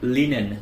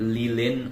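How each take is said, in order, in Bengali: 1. মাঝের ব্যঞ্জনটি N ধ্বনি। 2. মাঝের ব্যঞ্জনটি L ধ্বনি।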